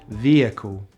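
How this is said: The first vowel is a long E. "American English"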